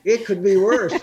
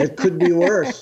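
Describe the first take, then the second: First: "It could be worse" pitched higher, laughing; Yiddish grandmother. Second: "it could be worse" with a rising, laughing lilt; "worse" lifted up at the end; Yiddish grandmother. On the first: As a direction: punch "It" high, with a laugh. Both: Retold or imitated.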